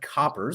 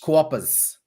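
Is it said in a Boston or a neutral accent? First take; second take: neutral; Boston. First: It is said in a neutral accent. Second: It is said in a Boston accent.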